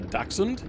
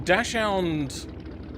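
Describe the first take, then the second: First: The word is said with a German pronunciation. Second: The word is said with an English pronunciation. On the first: "if you're from uh, Germany, or uh, basically anywhere in Europe, apparently they call them uh" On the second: "it's um a Dachshund"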